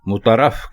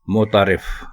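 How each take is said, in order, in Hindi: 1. यह शब्द 'raf' अक्षर पर खत्म होता है। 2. यह शब्द 'rif' अक्षर पर खत्म होता है। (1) "लोग इसको मुतारफ कहते हैं" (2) "दुरुस्त लफ्ज है मोतारिफ"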